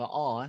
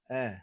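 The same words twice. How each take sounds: First: The vowel sounds heavy and full. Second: The vowel sounds light and thin. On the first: The speaker calls it wrong. "bukan a eh" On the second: The speaker calls it right. "ringan je bunyi dia. Uh, tidak berat"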